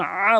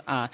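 First: "আ" squeezed in the throat, held longer; pressed throat sound. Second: "আ" as a plain open vowel; short "আ" with no throat pressure; common mispronunciation. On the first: Shown as a demonstration. Teacher correcting learners, pressed "আ". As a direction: press hard into "আ". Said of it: "বলতে হবে চাপ দিয়ে". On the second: Retold or imitated. Teacher quoting most people's mistake, plain "আ". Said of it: "দুইটা একই same উচ্চারণ করে".

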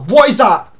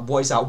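First: Sudden loud, higher cry of alarm; alarmed shout. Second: Said in the usual way. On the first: Real, not acted. Player spots something in a horror game, alarmed shout. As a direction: blurt it out in real panic.

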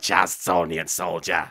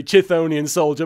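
First: "Chazthonian soldier" with Chaz as first syllable; made-up name. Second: "Chthonian soldier" with the real name's first syllable; correct name. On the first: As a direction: put Chaz into "Chazthonian soldier", pitched low. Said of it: "let's call it Chazthonian soldier". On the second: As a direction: say "Chthonian soldier" properly, no Chaz in it. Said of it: "It's actually Chthonian soldier". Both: Shown as a demonstration.

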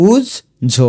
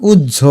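First: উজ্ঝ higher, as uj, jho; split in syllables. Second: Said in the usual way. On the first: Shown as a demonstration. Teacher breaking down the sound, উজ্ঝ split uj-jho. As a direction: clear gap inside উজ্ঝ. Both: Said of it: "এটার উচ্চারণ".

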